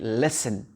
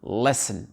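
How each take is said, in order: First: The T sound is left out entirely. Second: The same.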